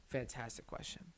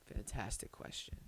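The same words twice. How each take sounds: First: Said in the usual way. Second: Whispered. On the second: Shown as a demonstration.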